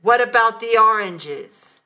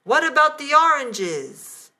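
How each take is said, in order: First: A nasty, louder demand. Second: High, loud shout through the door. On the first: Husband with mouth full, demanding nastily. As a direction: sneer the question at her. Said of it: "said in a nasty tone of voice". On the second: Husband shouting at the locked bathroom door. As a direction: yell it from outside the bathroom. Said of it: "I heard Robert's voice shouting". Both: A narrator's reading.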